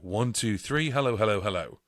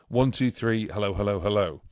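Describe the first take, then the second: First: The voice has a bright tone effect. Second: The voice has a warm tone effect. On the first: "it's on blue, which means bright, bright vocal tone" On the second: "now it's on a warm tone"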